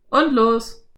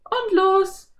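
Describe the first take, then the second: First: Loud cowboy call; cowboy calling to ride off. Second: Put-on very high, cheering girl; girl whooping as the ride starts; cheering Anne. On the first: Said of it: "rief Slim". (Cowboy ruft laut) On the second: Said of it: "jauchzte Anne". (jauchzendes Mädchen) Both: A narrator's reading.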